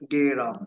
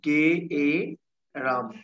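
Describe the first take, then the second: First: The word is said at normal speed, smoothly. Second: The word is said slowly, sounds pulled apart.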